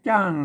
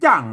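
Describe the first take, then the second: First: The word carries the special dialect tone. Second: The word carries the ordinary mai tho tone. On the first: "อันเสียงโทพิเศษเราก็จุดประดับไว้อย่างงี้น่ะ" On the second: "ใส่ไมโทมันออกเสียงจ้าง"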